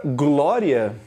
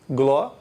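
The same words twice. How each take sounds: First: Said in the usual way. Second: "glória" broken into gló, long pause, ria; syllable division. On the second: Shown as a demonstration. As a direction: say "glória" one syllable at a time. ("glória" dividida em sílabas, com pausa longa) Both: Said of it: "Você vai fazer uma divisão silábica".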